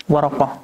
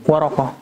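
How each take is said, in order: Both takes have the same delivery.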